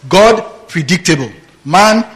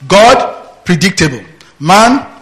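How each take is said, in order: Both takes have the same delivery.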